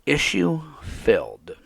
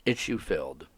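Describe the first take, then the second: First: Issue-filled drawn out slowly, high and loud; mocking drawn-out. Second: Issue-filled said low and plain, letting it sit; issue-filled, dry and deadpan; flat repeat. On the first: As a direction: stretch issue-filled out in mock wonder. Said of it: "Think about that for a moment". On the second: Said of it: "She's talking like it's a donut". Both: Shown as a demonstration.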